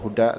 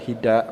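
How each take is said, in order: First: The vowel after h is u. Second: The vowel after h is i. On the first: "dengan pembacaan dhammah bi dhammal ha, jadi bacaannya huda" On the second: "boleh dibaca hida"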